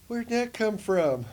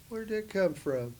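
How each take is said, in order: First: Much higher, louder and slow; slow astonished question; amazed question. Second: Higher, curious question; lightly amazed question; retold amazement. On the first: Retold or imitated. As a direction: ask in stunned wonder. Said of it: "I'm like". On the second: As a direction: ask in wonder. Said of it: "I said".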